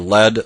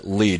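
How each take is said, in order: First: The vowel is short. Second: The vowel is long. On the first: "short vowel" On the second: "long vowel"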